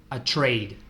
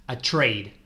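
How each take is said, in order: The two takes are said the same way.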